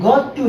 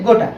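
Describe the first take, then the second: First: Two separate words, got and to. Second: Merged into one word, gotta. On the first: "ये गॉट टू है" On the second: "इसको बोला जाता है गोटा"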